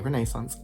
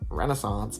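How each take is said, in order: First: It is pronounced the British way. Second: It is pronounced the American way.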